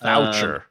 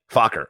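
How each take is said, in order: First: The name is said the tamer, inoffensive way. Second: The name is said the rude-sounding way. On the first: The name avoids sounding like a crude word. "the less incriminating version" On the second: The name sounds like a funny, crude word. "if it's Faulkner, it's funny"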